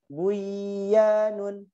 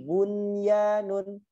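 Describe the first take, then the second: First: The n is merged into the following y. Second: The n is clearly kept before the y. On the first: The speaker calls it wrong. "nggak boleh bacanya buyanun" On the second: The speaker calls it right. "Ada lagi bunyanun"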